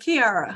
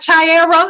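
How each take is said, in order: First: It begins with a hard 'k' sound. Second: It begins with a 'ch' sound, like chair. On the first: The speaker calls it right. "so it's Kiara" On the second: The speaker calls it wrong. "it's not Chiara ... kind of like a chair"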